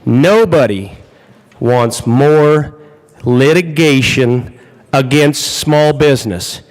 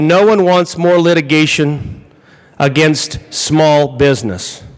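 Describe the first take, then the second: First: It is said very slowly. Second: It is said at a normal pace.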